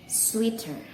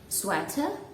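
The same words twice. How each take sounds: First: It uses the common Indonesian pronunciation. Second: It uses the standard English pronunciation. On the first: The speaker calls it wrong. "they say it sweater" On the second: The speaker calls it right. "instead of pronounce it sweater"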